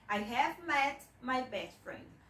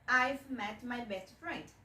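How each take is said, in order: First: I have is said as two full words. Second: I have is shortened into one syllable.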